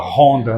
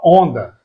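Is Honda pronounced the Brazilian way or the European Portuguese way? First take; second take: Brazilian; European Portuguese. First: Honda is said with a Brazilian pronunciation. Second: Honda is said with a European Portuguese pronunciation. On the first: This is how it is not said locally. "aqui não fala Honda" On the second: This is how it is said locally. "Aqui fala Honda"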